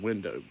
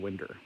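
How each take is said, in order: First: It is pronounced the northern way, ending in -ow. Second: It is pronounced the southern way, ending in -er.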